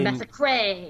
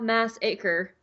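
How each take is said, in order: First: It is said as one ordinary word. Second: It is said like two words, mass and acre. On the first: The speaker calls it right. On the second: The speaker calls it wrong.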